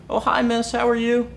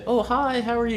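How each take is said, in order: First: It is said with a lowered voice. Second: It is said in his normal pitch.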